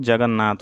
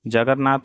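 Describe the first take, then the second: First: Said in the usual way. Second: जगन्नाथ with r for the first n; wrong pronunciation. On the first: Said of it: "होता है". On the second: Shown as a demonstration. Teacher shows students the error, जगन्नाथ said as jagarnaath. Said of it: "नहीं होता है".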